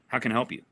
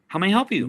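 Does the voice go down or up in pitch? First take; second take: down; up. First: The pitch goes down, sounding flat. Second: The pitch goes up, sounding upbeat.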